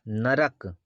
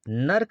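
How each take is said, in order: First: It is said with three syllables, na-ra-k. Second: It is said with two syllables, nark. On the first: The speaker calls it right. "साथियों ये नरक होता है" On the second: The speaker calls it wrong. "नरक नहीं होता, ये वाला ये गलत है"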